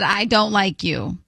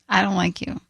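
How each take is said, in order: First: It is said loudly. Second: It is said very softly.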